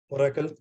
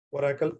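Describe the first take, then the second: No difference in how they are said.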